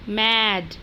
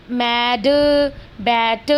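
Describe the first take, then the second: First: Said in the usual way. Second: Put-on मैड and बैट said the way the children wrongly say them, not like the teacher's own reading; mimicking the kids' faulty मैड and बैट as a warning; wrong pronunciation imitated. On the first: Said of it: "जैसे अभी ma'am ने की थी". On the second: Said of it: "इस तरह से नहीं बोलना".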